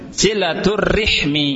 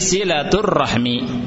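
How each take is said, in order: First: An i follows the r; no vowel follows h. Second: An a follows the r; no vowel follows h. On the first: "ra-nya di kasrah, ha-nya di sukun" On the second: "ra-nya di fathah, ha-nya disukun"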